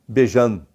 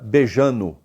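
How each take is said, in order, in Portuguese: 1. A palavra termina com um som de mm cortado. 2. A palavra perde o d e termina em -no. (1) "E se for em Minas" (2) "fica beijando"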